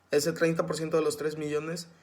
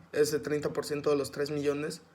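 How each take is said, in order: The two takes are said the same way.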